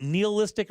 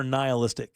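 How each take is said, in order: First: "nihilistic" with NEE as first syllable; "nee" pronunciation. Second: "nihilistic" with NIGH as first syllable; "nigh" pronunciation. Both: Shown as a demonstration. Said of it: "is it nihilistic or nihilistic".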